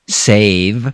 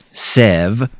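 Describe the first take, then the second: First: The vowel is a long 'ay' sound. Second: The vowel is a short 'eh' sound. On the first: The speaker calls it right. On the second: The speaker calls it wrong.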